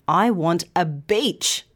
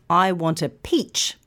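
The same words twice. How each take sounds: First: Slow phrase, "beach" with a voiced B. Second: "peach" with a puffed, unvoiced P; clear P in peach. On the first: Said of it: "but your friend hears". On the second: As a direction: release air sharply to start "peach". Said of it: "if you're trying to say". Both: Shown as a demonstration.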